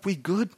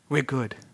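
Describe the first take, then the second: First: It rises at the end like a question. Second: It falls firmly like an exclamation.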